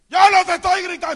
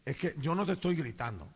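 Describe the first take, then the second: First: Very loud, high, fast retort; mock husband's defensive shout; acted shouted denial. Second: Lowered, gentle reassurance; quiet, low-pitched conciliatory tone; calm denial. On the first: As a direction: yell that you are not yelling. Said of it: "parece que estamos gritando". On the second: Retold or imitated. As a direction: reassure her softly that you are not yelling. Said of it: "le digo".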